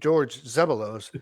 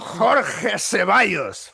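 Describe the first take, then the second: First: The name is said with a light accent. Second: The name is said with a thick Spanish accent.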